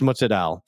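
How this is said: It is said in an Italian American way.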